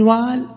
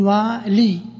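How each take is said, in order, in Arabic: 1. الكلمة لا تنتهي بحركة 'ee' طويلة. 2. الكلمة تنتهي بحركة 'ee' طويلة. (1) "فالأفصح الوقف عليه رفعا وجرا بالحذف" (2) "بعضهم وقف عليها"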